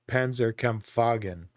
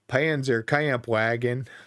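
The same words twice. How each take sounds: First: It is said German-style, with W sounding like V. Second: It is said in a Texan accent, anglicized. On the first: The speaker calls it right. "the W being kind of a V" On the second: The speaker calls it wrong. "sound like a Texan"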